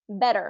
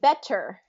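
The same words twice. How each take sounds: First: The middle consonant is a soft D-like tap. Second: The middle consonant is a crisp T sound. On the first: "then we pronounce it better" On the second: "It's spelled like it should be better"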